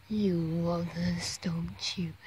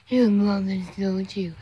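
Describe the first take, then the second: First: Soft unvoiced whisper to a pet. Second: Said in the usual way. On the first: Real, not acted. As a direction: breathe it, barely voiced.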